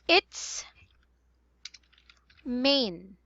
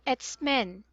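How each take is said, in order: First: The second word has a long 'ay' vowel, like 'main'. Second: The second word has a short 'e' vowel, like 'men'. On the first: The speaker calls it right. "So it's main" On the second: The speaker calls it wrong. "You said a while ago it's men"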